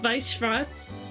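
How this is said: It is said with a German-style pronunciation. It is how the words are actually said in German. "knowing German and knowing that it's pronounced"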